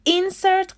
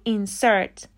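First: Insert stressed on the first syllable, IN-sert, said higher; wrong stress. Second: Insert stressed on the second syllable, in-SERT. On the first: (تکیهٔ غلط روی هجای اول insert) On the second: (تکیه روی هجای دوم insert) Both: Shown as a demonstration. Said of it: "استرس در لغت insert روی سیلاب دومه".

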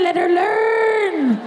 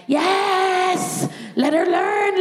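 First: High, very slow, stretched-out cry; high wailing let her learn; drawn-out plea. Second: High, frantic agreement; high strained cry of yes; desperate yes. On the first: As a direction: drag the word learn out in pain. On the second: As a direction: yell it out in pained desperation. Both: Retold or imitated. In agony, urging the student nurse.

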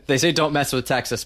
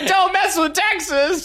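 First: Said in the usual way. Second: High, slow, whiny and laughing. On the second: Shown as a demonstration. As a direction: whine it like a sulking kid. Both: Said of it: "in kind of a whiny voice".

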